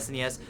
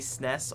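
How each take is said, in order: First: Each letter is spoken separately. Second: It is said as a single syllable. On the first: The speaker calls it right. "it's one hundred percent" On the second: The speaker calls it wrong. "It's just one syllable"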